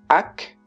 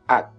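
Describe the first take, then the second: First: The final k is audibly released. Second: The final k is held, not released. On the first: The speaker calls it wrong. "En français, ak" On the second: The speaker calls it right. "en coréen, A"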